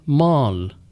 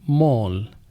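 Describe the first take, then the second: First: The vowel is an American sound between 'ah' and 'oh'. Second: The vowel is a rounded British 'aw' sound. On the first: "ना वो ओ का sound देते हैं ना ए, बल्कि इसके दरमियान का एक साउंड" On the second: "इन सब में ए को वो ओ का साउंड देते हैं"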